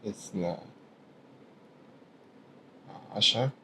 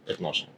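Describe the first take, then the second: First: It is said as two separate, full words. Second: It is said as one contracted word. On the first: This is the formal standard form. "That's M S A" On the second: This is the everyday Egyptian form. "if you're speaking like purely in Masri"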